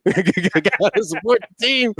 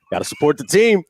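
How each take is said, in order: First: High, slow, drawn-out mock cheer; hammed-up repeat of a fan's rallying cry; exaggerated fan cheer. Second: Slightly hammed-up team slogan; imitating a sitcom sports fan; acted fan declaration. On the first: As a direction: stretch the slogan out through laughter. Repeats quote higher, drawn out, laughing. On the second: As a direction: say it as a keen fan, raised pitch. First take of Kramer quote.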